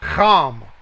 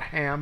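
First: The name begins with a rough, throaty ch sound. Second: The name begins with a plain, soft h sound. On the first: The speaker calls it right. "It's like the German ox sound" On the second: The speaker calls it wrong. "It's not Ham"

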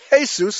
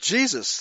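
First: It is said the way Spanish speakers say it. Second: It is said in the modern English way. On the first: This is how Spanish speakers say the name. "as the Spanish pronounce it" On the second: This is a recent way of saying the name. "They never pronounced it Jesus. That's a very modern designation"

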